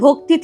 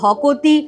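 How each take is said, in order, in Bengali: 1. k আর t একসাথে গুচ্ছ হিসেবে উচ্চারিত হয়। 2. একটি o স্বরধ্বনি k আর t-কে আলাদা করে।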